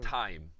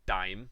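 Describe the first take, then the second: First: The first sound is a crisp, breathy t. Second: The first sound is soft, like a d. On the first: The speaker calls it right. "it's time" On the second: The speaker calls it wrong. "it's not dime"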